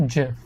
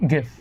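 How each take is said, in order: First: Gif said as JIF; soft G. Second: Gif with hard g as in graphics. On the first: Retold or imitated. Citing the guy who invented it, soft G. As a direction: say gif with a j sound. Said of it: "He says it's". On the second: Shown as a demonstration. Telling how most people say it, hard G. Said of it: "most people say it as".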